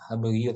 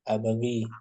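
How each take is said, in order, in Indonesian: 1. Kata ini berakhir dengan bunyi 'yoo' yang ditambahkan. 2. Kata ini berakhir dengan bunyi 'ee' yang panjang.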